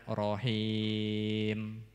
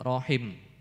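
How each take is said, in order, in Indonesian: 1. Vokal sebelum huruf m akhir dibaca panjang. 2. Vokal sebelum huruf m akhir dibaca pendek. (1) "wakofnya juga tetap dibaca panjang" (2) "wakof juga dibaca pendek"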